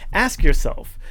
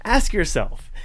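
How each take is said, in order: First: "Ask" hit louder, falling firmly; louder repeat. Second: Righteous anger. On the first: Telling the library author to reflect, "Ask" stressed. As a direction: drive the word "Ask" home. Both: Real, not acted. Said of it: "That was some good righteous anger".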